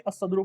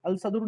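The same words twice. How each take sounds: First: الصدر said as "as-sadru", lam silent, sad doubled; الصدر with the lam swallowed into a doubled sad; الصدر read "assadru", sad sound only; correct reading. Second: الصدر said as "al-sadru", lam clearly sounded; الصدر with a full separate lam before the sad; الصدر misread as "alsadru", lam not dropped; wrong reading. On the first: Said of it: "صاد کی آواز آئے گی اور لام کی آواز نہیں آئے گی". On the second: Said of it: "لام کی آواز نہیں آئے گی". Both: Shown as a demonstration.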